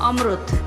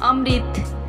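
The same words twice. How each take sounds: First: The middle syllable sounds like 'ru'. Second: The middle syllable sounds like 'ri'. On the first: "Odia उच्चारण" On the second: "Hindi उच्चारण"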